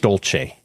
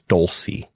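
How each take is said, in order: First: The name is given its Italian pronunciation. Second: The name is given an Americanized pronunciation. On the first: This is how the name is said in Italy. "the pronunciation is Dolce. If you're from Italy" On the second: The family adapted the name to sound American. "so they Americanized it"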